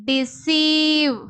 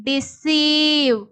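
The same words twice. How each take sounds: No difference in how they are said.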